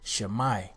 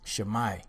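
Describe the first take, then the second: First: The word ends in a 'mai' sound. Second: The word ends in a 'mai' sound.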